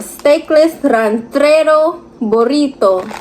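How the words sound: Ranchero burrito is pronounced the Spanish way.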